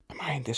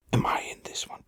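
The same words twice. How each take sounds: First: Quick high-pitched question; mock falsetto "Am I in this?"; high squeak. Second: Breathless whisper, nearly silent; sneaky whisper to himself; whispered aside. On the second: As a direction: hush it like a secret. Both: Shown as a demonstration. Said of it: "retake of the same line".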